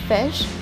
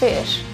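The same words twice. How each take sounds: First: The vowel is said in a relaxed way. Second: The vowel is said with tension and emphasis. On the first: The speaker calls it right. "you have to produce this sound in a more relaxed way" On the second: The speaker calls it wrong. "They will give more emphasis on the sound of the letter I there"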